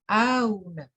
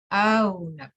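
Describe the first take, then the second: First: The second hamza is softened between hamza and w. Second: The second hamza is softened between hamza and w.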